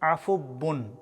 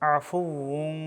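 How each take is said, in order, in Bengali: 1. মাঝের ব্যঞ্জনটি দ্বিত্ব ব-ধ্বনি। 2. মাঝের ব্যঞ্জনটি ঠোঁট দিয়ে উচ্চারিত ওয়াও-ধ্বনি। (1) "অনেকে ভুল করে বলেন আফুব্বুন" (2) "সঠিক উচ্চারণ আফুউন"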